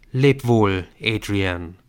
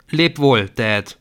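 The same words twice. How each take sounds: First: Father's farewell. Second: Louder, emotional goodbye; son's farewell. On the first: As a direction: let go of the son tenderly. (ruhiger, sanfter Abschied des Vaters) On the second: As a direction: say goodbye to his father. Son bids farewell. (bewegter Abschied des Sohnes) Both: Acted.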